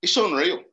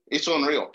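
First: It's unreal burst out higher and louder; excited emphasis. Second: Said in the usual way. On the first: Real, not acted. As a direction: throw out it's unreal with real wonder.

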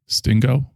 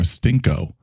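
First: "Stingo" with a voiced hard g. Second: "Stinko" with a voiceless k. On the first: Asking Boots which name it is, "Stingo" with a g. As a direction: say "Stingo" with g, as a question. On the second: Offering Boots the other option, "Stinko" with a k. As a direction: say "Stinko" with k in the middle. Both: Shown as a demonstration. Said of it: "Or Stinko?".

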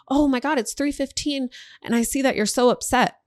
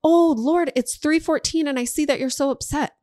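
First: High, exaggerated mock alarm; dramatic surprise. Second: Bigger mock surprise. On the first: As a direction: act shocked at the time, hammed up. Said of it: "That's day one". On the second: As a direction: overplay the shock this time. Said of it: "Day two". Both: Shown as a demonstration.

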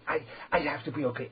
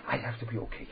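First: Faster, higher, stammering "I, I" like someone praying only to himself; mock self-absorbed worshipper. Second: Said in the usual way. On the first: Shown as a demonstration. Rabbi mimics a man who prays only to himself, stammering quickly. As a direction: rush it, tripping over the repeated "I". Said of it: "I daven to myself". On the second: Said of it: "Because I have to daven".

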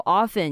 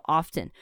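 First: Often said OFF-en, T silent; often without T. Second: Often said OFF-ten, T sounded. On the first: Teacher shows often with a silent T. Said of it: "很多人喜欢说often". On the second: Teacher shows often with the T pronounced. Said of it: "有些人喜欢说often". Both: Shown as a demonstration.

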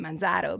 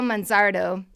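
First: Manzardo in a Boston accent, r dropped: Manzahdo. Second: Said in the usual way. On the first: Shown as a demonstration. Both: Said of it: "I keep wanting to say that with a Boston accent".

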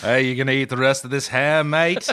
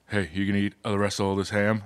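First: Lightly put-on British musician accent. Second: Low, soft, quick British musician voice. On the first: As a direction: lean lightly into British, landing on "mate". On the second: Acted. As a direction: murmur it low with a British accent. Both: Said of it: "[name] sounds a lot like [name]".

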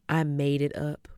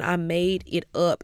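First: Said in the usual way. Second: "I made it up" slowed, each word weighted; emphatic confession. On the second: Real, not acted. Speaker confessing to the audience, "I made it up" slow and emphatic.

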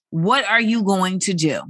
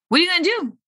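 First: Said in the usual way. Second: Much higher playful echo; pitched-up repeat. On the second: Acted. Host to forty-year-olds, repeating the question much higher. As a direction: toss the question back up high.

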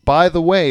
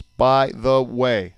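First: Said in the usual way. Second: "By the way" very slowly, one syllable at a time; counting syllables. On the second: Shown as a demonstration. Dad counting the syllables for his co-host, "By the way" slow and separated. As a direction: space out each word of "By the way". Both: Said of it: "three syllables".

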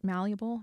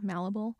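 First: "Malleable?" said as MAL-yuh-bul, with a y sound after the l; "Malleable?" in three beats, MAL-yuh-bul, asked like a question; tentative "Malleable?" as MAL-yuh-bul; trying a pronunciation. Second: "Malleable?" said as MAL-uh-bul, no y sound, rising at the end; "Malleable?" checked again as MAL-uh-bul with a questioning rise; unsure "Malleable?" as MAL-uh-bul; second pronunciation try. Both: Shown as a demonstration. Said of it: "Am I saying that right?".

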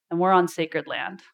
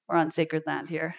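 First: Said in the usual way. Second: Softer, reverent repeat of "We're on sacred land here"; hushed repeat. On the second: Shown as a demonstration.

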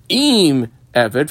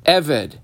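First: "Im" stretched out before Eved; stress on Im. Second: Said in the usual way. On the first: Shown as a demonstration. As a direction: lean on the added word "Im". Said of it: "and then a different quote". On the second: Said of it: "three letters in a quote".

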